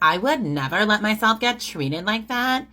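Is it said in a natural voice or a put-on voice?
put-on. It is said in an exaggerated put-on voice.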